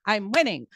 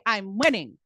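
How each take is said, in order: Both takes have the same delivery.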